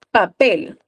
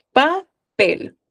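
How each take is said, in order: First: Said in the usual way. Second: "Papel" said higher, with the final syllable pel pushed out clearly; stress on the last syllable. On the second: Shown as a demonstration. Teacher showing students where the stress falls, stress on pel. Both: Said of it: "¿Dónde está la sílaba tónica?".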